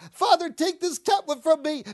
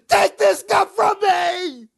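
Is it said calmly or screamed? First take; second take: calmly; screamed. First: It is said calmly and quietly. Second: It is screamed loudly and desperately.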